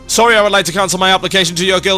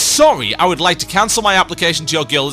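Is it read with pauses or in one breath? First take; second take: one breath; pauses. First: It is read breathlessly, without any pauses between phrases. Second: It is read normally, with pauses between phrases.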